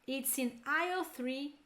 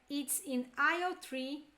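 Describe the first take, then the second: No difference in how they are said.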